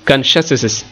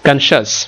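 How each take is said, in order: First: The word ends with an extra hissing 'iz' syllable. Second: The word ends without an extra syllable. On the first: The speaker calls it wrong. "উচ্চারণটা এটা বেমানানো হয়" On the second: The speaker calls it right. "উচ্চারণটা এখন হচ্ছে কনসাস"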